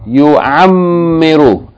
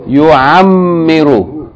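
Both takes have the same delivery.

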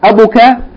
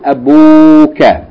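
First: The vowel after the b is short. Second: The vowel after the b is long. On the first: The speaker calls it wrong. "Instead of" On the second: The speaker calls it right. "it becomes elongated to"

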